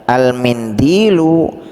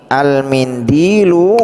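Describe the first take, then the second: Both takes have the same delivery.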